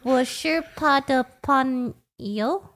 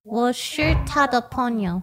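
First: 我是他的朋友 through laughter; laughing Mandarin. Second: 我是他的朋友 said slowly; slow careful Mandarin. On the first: Real, not acted. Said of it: "trying to yell". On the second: Shown as a demonstration. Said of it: "how do you say".

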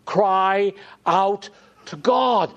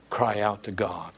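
First: High, loud, slow refrain; fervent preaching cry. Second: Said in the usual way. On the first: Acted. Preacher urging hearers to cry to God, fervent. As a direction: draw it out with urgent fervour.

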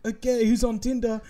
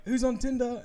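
First: Higher host voice; imitating a host; mock host bit again. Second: Higher host voice; imitating a host's bit; mock host bit. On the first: Same bit repeated. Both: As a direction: lightly play the host.

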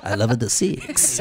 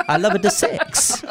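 First: Low purring Latin lover voice, laughing. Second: Laughing mock Latin lover accent; Italian lover voice. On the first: Acted. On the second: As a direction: purr it like a hammed-up Latin lover. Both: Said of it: "Like I'm some sort of Italian lover".

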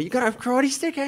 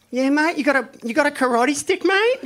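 First: High Aussie taunt; mock Aki, high and cocky; Aussie accent. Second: High, loud Aussie challenge; mock Aki, high and cocky; Aussie accent. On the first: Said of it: "he's like". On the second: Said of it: "he gets up, he's like".

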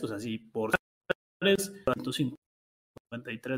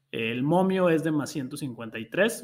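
First: Broken-up call audio, words dropping out; bad internet line breaking up; cutting out. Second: Said in the usual way. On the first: Real, not acted. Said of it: "se está cortando un poquito". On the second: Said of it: "no te estoy escuchando".

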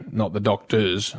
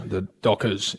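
First: "doctors" slowed, with the t sounded; wrong word doctors. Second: "Dockers" low and soft, no t; correct word Dockers. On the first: Co-host showing the slip, slow low "doctors". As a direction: say "doctors" slowly, stressing the -tors. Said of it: "The Dockers, not the doctors". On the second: Co-host giving the right name, low clear "Dockers". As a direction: say "Dockers" clearly, ending in -kers. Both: Shown as a demonstration.

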